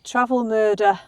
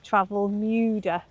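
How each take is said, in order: First: The vowel after the M sounds like 'er'. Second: The vowel after the M sounds like 'oo'. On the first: The speaker calls it wrong. "not a er sound" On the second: The speaker calls it right. "is a U sound"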